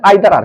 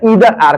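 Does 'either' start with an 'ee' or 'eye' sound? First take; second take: eye; ee. First: The first vowel of either sounds like 'eye'. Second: The first vowel of either sounds like 'ee'. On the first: "आइए इससे पहले आइदर आर को देखते हैं" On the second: "या ईदर आर को देखते हैं"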